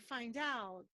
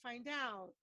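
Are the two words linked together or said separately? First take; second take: linked; linked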